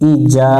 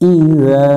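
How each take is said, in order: First: The middle consonant is a hard 'j' sound. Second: The middle consonant is a soft 'dh' sound. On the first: The speaker calls it wrong. "অনেকজন ভুল করে এটা জিমের মতো উচ্চারণ করে" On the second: The speaker calls it right. "জাল অক্ষর জিহ্বার আগা থেকে একটু নরম করে পড়তে হয়"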